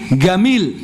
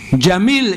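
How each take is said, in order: First: The word begins with a hard g sound. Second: The word begins with a j sound. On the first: The speaker calls it wrong. "tapi gamil" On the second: The speaker calls it right. "Jamil itu tidak bisa"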